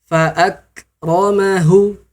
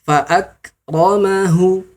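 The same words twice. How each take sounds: No difference in how they are said.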